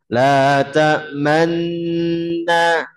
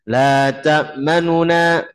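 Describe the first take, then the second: First: The n sounds merge while the lips round. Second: A brief, quick vowel is heard between the n sounds. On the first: "Itu kan memonyongkan sih kan?" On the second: "Kalau ikhtilas"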